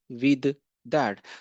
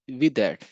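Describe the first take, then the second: First: The two words are said separately and distinctly. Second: The two words run together as one unit. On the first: The speaker calls it wrong. "not with that" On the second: The speaker calls it right. "They connect these two words and they say with that. W I D A T"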